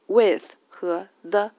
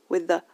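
First: "with" and "the" slow and louder, each alone; separate citation forms. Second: "with the" run together as one unstressed unit; light, linked words. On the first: Teacher names the two small words, separately stressed. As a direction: pronounce "with", then "the", as separate full words. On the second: Teacher shows small words joined up, light and linked. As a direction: slide "with" straight into a weak "the". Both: Shown as a demonstration. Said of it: "是轻读的".

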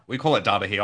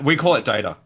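First: Low-pitched "data" with an open AH; broad-a data. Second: "data" with the vowel of "day"; long-a data. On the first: Host explaining Australian usage, "data" as DAH-ta. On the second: Host trying out the local word, "data" as DAY-ta. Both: Shown as a demonstration.

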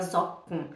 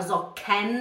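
First: Socken as "zok-n", softer and falling; E dropped. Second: Socken as "zo-ken", vowel sounded, rising; wrong, full E. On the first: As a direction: let k run into a bare n in Socken. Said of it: "a gente fala". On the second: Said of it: "A gente não fala". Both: Shown as a demonstration.

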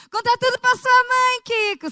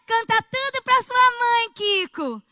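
First: High, loud scolding TV mom; Dona Florinda impression. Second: High, loud and slower scolding mother voice; Dona Florinda impression. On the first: Quoting Dona Florinda to Kiko, high loud scolding mother voice. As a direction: belt it out like a nagging sitcom mother. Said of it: "sabe a história lá da Dona Florinda?". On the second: Retelling the Chaves scene, slow high scolding mother. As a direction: stretch it out like a sitcom mom nagging her son. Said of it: "aí tem aquela história".

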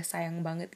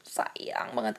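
First: Said in the usual way. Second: "sayang" drawn out for emphasis; emphatic stress. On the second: Real, not acted. Woman confessing how much she loves him, "sayang" stretched emphatically. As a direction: stretch "sayang" to show how deep it goes.

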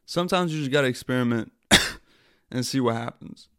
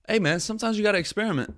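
First: Said in the usual way. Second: Much higher, fast, airy excuse voice; mock breezy excuse. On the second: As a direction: toss it off like a carefree dude. Mock excuse for failed live.

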